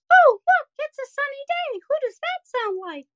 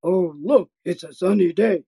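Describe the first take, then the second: First: Squeaky head voice, much higher. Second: Lower, fuller chest voice. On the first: Coach demonstrating head voice to the kids, high and squeaky. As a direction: pitch way up into the head voice, light and thin. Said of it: "we do play with the head voice". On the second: Coach demonstrating chest voice after the head voice, lower and fuller. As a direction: drop it down into the chest, grounded. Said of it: "then we put it into a chest voice". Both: Shown as a demonstration.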